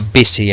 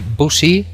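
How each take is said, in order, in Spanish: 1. La primera vocal es una i corta. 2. La primera vocal no es una i corta. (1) "sino busy en inglés" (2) "no se dice busy"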